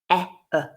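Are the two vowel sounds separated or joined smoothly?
separated. The two sounds are said separately with a stop.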